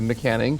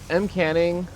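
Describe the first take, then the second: First: It starts with a joined 'Mc' syllable. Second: It starts with the separate letter name 'Em'.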